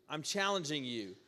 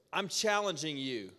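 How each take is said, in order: Both takes have the same delivery.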